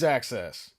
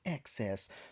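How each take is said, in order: First: The word starts with an "ak" sound. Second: The word starts with an "ek" sound. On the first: The speaker calls it wrong. "I always say access. Always access" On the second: The speaker calls it right. "it's excess"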